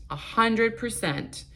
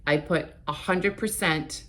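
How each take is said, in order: First: "a hundred percent" said again slowly, higher, each word leaned on; slow, higher, insistent "a hundred percent"; emphatic repeat. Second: Said in the usual way. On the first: Shown as a demonstration. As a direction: drag out "a hundred percent" to drive it home.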